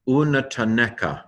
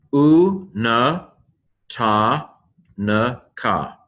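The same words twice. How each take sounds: First: Said in the usual way. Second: "U na ta na ka" in separate, held syllables. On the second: Shown as a demonstration. Teacher sounding out Hebrew for learners, syllable by syllable. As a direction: sound it out, pausing after each piece. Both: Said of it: "the Hebrew pronunciation".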